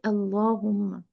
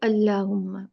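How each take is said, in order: First: The L sound is thick and heavy. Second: The L sound is thin and light. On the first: The speaker calls it right. "we say Allahumma" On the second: The speaker calls it wrong. "we don't say Allahumma"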